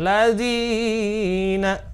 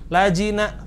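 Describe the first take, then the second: First: The long vowel is stretched well beyond normal length. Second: The long vowel is cut short, not lengthened. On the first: "nggak boleh lebih dari dua harokat. Misalkan ladzina, salah" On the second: "madnya nggak dibaca lajina, salah juga"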